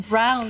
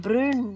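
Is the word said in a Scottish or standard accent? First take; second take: standard; Scottish. First: It is said with a standard English vowel. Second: It is said with a Scottish vowel.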